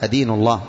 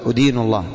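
First: The first word begins with an 'a' vowel. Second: The first word begins with a 'u' vowel. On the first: The speaker calls it right. "الفتح" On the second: The speaker calls it wrong. "تضم، هذا خطأ"

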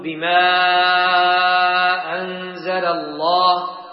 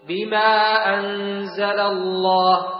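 First: The vowel before the hamza is drawn out long. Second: The vowel before the hamza is kept short. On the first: "فيجوز مده، تقول" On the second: "ويجوز قصره، تقول"

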